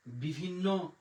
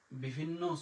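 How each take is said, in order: Both takes have the same delivery.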